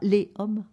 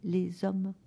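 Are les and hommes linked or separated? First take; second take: separated; linked. First: Les and hommes are separated with no liaison. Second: Les and hommes are linked with a z sound. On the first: The speaker calls it wrong. "on ne dit pas les hommes" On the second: The speaker calls it right. "on dit les hommes"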